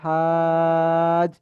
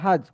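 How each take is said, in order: First: The first vowel is stretched out long. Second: The first vowel is short, not stretched. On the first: "যেহেতু চার আলিফ টান আছে সেজন্য হাজ এমন হবে" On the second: "যদি চার আলিফ টান না থাকতো তাহলে এমন হতো"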